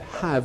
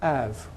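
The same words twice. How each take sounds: First: The h sound at the start is pronounced. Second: The h sound at the start is dropped. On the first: It is used as the main verb. The speaker calls it right. "I said have" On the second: It is an unstressed helper word. The speaker calls it wrong. "and not have"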